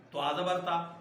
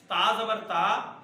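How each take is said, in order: First: تا said thin and light; plain light تا. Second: تا with a thick, heavy toe, louder and slow. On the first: Teacher giving the light te for comparison. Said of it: "ایک جیسا". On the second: Teacher contrasting heavy toe with light te. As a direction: stress the heavy تا. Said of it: "تو یہ تو ایک جیسا ہو گیا". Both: Shown as a demonstration.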